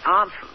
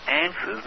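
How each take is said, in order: First: Answers with a long open ah, ahn-sers; Australian answers. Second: Answers with the short a of cat, an-sers; American answers. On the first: Host contrasting his own answers with Clinton's, Australian ah. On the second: Host contrasting Clinton's answers with his own, American a. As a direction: say answers the way Clinton does, flat a. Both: Shown as a demonstration. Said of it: "I would say answers and Clinton would say".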